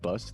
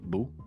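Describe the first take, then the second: First: The word ends with a clear s sound. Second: The word ends without any s sound. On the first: "Instead of saying like bus for like bus" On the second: "they like don't pronounce their words fully"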